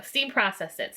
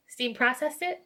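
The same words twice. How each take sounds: First: Said in the usual way. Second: Rising, unsure question. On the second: Real, not acted. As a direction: check the phrase as a question. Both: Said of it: "Yeah, there we go".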